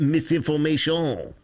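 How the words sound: It is said with a French accent.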